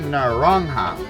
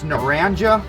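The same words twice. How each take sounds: First: The name is said with a Spanish pronunciation. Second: The name is said with an English-style pronunciation. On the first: This is the original Spanish word for orange. "It's actually naranja" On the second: This is how the locals say it. "It's how they pronounce it"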